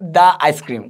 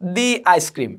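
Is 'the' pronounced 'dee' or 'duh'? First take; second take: duh; dee. First: 'The' is pronounced with a short 'uh' sound. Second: 'The' is pronounced with a long 'ee' sound. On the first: The speaker calls it wrong. "Not দা ice cream, কখনো বলবো না" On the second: The speaker calls it right. "এটা হচ্ছে দি ice cream"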